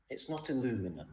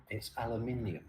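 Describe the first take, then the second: First: "aluminum" as a-LOO-mi-num, American style. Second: "aluminium" as al-yoo-MIN-ee-um, five syllables; British aluminium. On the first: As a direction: say "aluminum" the American way, four syllables. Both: Shown as a demonstration. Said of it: "I'd like to correct one thing".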